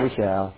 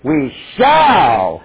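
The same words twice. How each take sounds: First: It is said half-heartedly, without conviction. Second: It is said firmly, with confident certainty. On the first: It might not really happen. The speaker calls it wrong. "Don't read it like this" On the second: It will definitely happen. The speaker calls it right. "So here's how you should read it"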